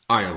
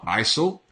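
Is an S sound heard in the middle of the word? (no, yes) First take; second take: no; yes. First: No S sound is pronounced in the word. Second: An S sound is pronounced in the word. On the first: The speaker calls it right. "Aisle has a silent S" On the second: The speaker calls it wrong. "It's not aisle"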